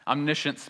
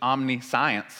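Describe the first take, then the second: First: The ending sounds like 'shunts'. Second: The ending sounds like the word 'science'. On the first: "we just pronounce it shunts instead of science" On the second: "omniscience is what it actually says"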